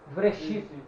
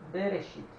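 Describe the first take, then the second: First: It starts with v and no vowel follows. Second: It starts with b and a short e follows. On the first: The letter has no doubling mark. "se eu não tiver o daguesh" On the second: The letter has the doubling mark. "Quando ele duplica, você pronuncia"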